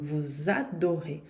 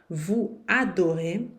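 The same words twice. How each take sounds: First: The S is linked as a Z sound. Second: The S is silent, with no link. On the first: The speaker calls it right. "E é obrigatório fazer essa liaison" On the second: The speaker calls it wrong. "tá errado e certamente as pessoas vão lhe corrigir"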